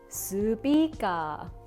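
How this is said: Each syllable is slowed and stretched out.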